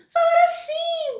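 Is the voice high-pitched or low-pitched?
high. The voice is pitched noticeably high. "eu poderia falar mais agudo, falar assim, bem alto"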